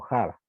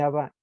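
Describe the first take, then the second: First: The word starts with a breathy aspirated sound. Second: The word starts directly with the vowel. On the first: This is the medieval pronunciation. "En el medieval se pronunciaba como" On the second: This is the modern pronunciation. "Lo que pronunciamos, por ejemplo, hoy en día"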